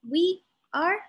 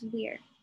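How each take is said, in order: First: It is said as two separate words. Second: It is said as one contracted word. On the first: "we take two words" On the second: "we make it into one"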